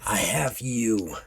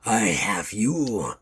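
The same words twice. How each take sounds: First: It is said with little snarl. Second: It is said in a heavy snarl.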